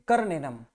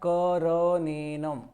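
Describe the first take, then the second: First: The r is said without a following vowel. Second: The r is said with a full vowel. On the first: The speaker calls it wrong. "करनेनम बोलते हैं, करनेनम, कर नेनम, तो ये गलत है।" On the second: The speaker calls it right. "कर र पूरा बोलना है"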